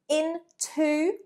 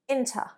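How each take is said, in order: First: The word is said slowly with a full final vowel. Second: The word is said fast with a reduced final vowel.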